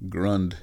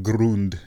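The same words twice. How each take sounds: First: "Grund" with a short uh, rhyming with fund; Americanized pronunciation. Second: "Grund" with a German oo, as Groond; original pronunciation. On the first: Host showing the changed surname, "Grund" said with uh. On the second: Host showing the old surname, "Grund" said as Groond. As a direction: round the vowel of "Grund" into oo. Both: Shown as a demonstration. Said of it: "their name got changed to Grund".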